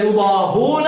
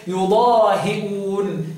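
First: يضاهون as yudaahuuna; recited يضاهون with no glottal catch; damma, no hamza. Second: Very slow يضاهئون as yudaahi'uun; recited يضاهئون, long aa and i before the hamza; Asim's hamza reading. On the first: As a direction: glide from h straight into long u in يضاهون. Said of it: "بالضم وحذف الهمزة". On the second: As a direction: stretch يضاهئون, glottal stop after hi. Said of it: "يقرأها إيه؟". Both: Shown as a demonstration.

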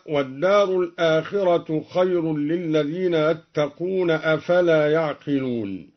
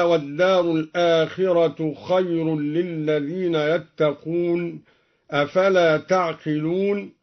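First: يعقلون with y, third person; يعقلون بالياء. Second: تعقلون with t, addressing; تعقلون بالتاء. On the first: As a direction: say يعقلون beginning with y. (يعقلون بياء الغيبة) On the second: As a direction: say تعقلون beginning with t. (تعقلون بتاء الخطاب) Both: Shown as a demonstration. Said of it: "قرأ الدوري بالياء على الغيبة".

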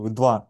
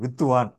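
First: வித்வான் with த் running straight into வா; Sanskrit pronunciation. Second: வித்துவான் with a thu syllable added in the middle; Tamil pronunciation. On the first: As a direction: say வித்வான் in two syllables, no u after the த். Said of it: "இதான் சம்ஸ்கிருத உச்சரிப்பு". (வித்வான் என்று சமஸ்கிருத உச்சரிப்பில், இடையில் உகரம் இல்லாமல்) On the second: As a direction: say வித்துவான் in three syllables, vith-thu-vaan. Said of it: "இடையில் தூ சேர்த்து எழுதுவார்கள்". (வித்துவான் என்று தமிழ் மரபுப்படி, இடையில் து சேர்த்து) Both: Shown as a demonstration.

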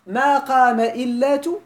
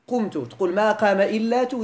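First: Slow, louder testing question with إلا drawn out; questioning wrong example. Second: Said in the usual way. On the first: Shown as a demonstration. Teacher quizzing students on a wrong form, slow and pointed. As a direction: ask ما قام إلا تو slowly, stressing إلا as a doubtful test.

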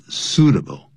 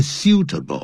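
First: "suitable" said SOO-duh-bul, with no y-glide; correct pronunciation. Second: "suitable" said with a "syoo" first syllable and a crisp t; wrong pronunciation. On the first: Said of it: "没有这种发音的". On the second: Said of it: "不要念suitable啊". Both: Shown as a demonstration.

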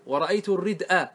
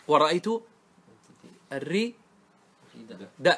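First: الردء said "ar-rid'a", a after the glottal stop; final fatha after hamza. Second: Word split as "ar-ri... da'", pausing between; fatha moved back. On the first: Teacher listing case endings, الردء as "ar-rid'a". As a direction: end الردء on hamza plus a. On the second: Teacher prompting students on the pausal form, "ar-rida'" in pieces. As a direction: put a on the d, then stop on hamza. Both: Shown as a demonstration. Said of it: "وانقل فتحة".

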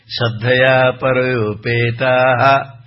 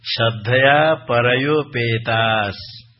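First: "परोपेता" sung slowly and louder, ending in an added "ha"; wrong visarga. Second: "परयोपेतास" ends on a clear s sound, no visarga, slowly; correct recitation. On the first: Teacher mimics people who chant it wrongly, louder slow chant. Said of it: "कुछ बहुत लोग ऐसे ही प्रकार बोलते हैं". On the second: Teacher shows students the correct ending, slow careful recitation. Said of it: "तृतीय पाद में". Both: Shown as a demonstration.

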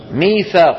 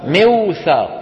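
First: "ميثاق" with long ee, mee-thaaq; smooth long mee in "ميثاق"; everyday changed form. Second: "موثاق" as miw-thaaq, waw sounded; original unaltered form. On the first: Teacher asks for its origin, "ميثاق" said mee-thaaq. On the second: Teacher answers with the origin, "موثاق" as miw-thaaq. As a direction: hold miw at the start of "موثاق". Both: Shown as a demonstration. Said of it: "شو أصلها؟".

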